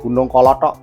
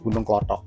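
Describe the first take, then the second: First: The name has three syllables, ko-lo-thok. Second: The name has two syllables, klo-thok. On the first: This is the original full name. "sebetulnya namanya Gunung Kolothok" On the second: This is a shortened everyday form. "lidahnya orang bisa terpelintir menjadi Gunung Klothok"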